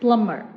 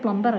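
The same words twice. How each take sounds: First: The b in the middle is silent. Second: The b in the middle is sounded. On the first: The speaker calls it right. "ബി silent ആണ്, നമ്മളെ പ്ലംബറിനെ പോലെ തന്നെ" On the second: The speaker calls it wrong. "അത് പ്ലംബർ അല്ല"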